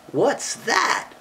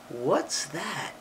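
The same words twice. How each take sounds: First: "What's that" pitched high, rising at the end; questioning tune. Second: Said in the usual way. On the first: Shown as a demonstration. Reading a question to a child, "What's that" rising high. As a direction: ask "What's that" with THAT swooping up. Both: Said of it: "That's a question".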